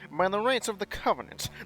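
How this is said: It is said in a nasal voice.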